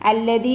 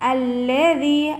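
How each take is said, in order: First: The middle consonant is a hard d. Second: The middle consonant is a soft th. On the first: The speaker calls it wrong. "അല്ലദീ എന്നായി പോവരുത്" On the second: The speaker calls it right. "ദാല് പുള്ളിലെ ദാലാണ്"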